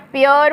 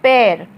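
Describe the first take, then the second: First: It is said like 'pay-er', in two syllables. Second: It is said like 'pair', in one syllable. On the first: "बहुत सारे लोग इसे पेयर भी pronounce करते हैं" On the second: "ज्यादातर सही उच्चारण इसका जो माना जाता है वो है पैर"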